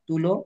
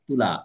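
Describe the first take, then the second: First: The word ends in an 'o' vowel. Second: The word ends in an 'a' vowel. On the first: This form is easier and more natural to say. The speaker calls it right. "আমরা তুলো বলতে কত স্বাচ্ছন্দ্য বোধ করি না" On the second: This form takes more effort to say. The speaker calls it wrong. "তুলা বলতে তার থেকে টাইম বেশি লাগে না"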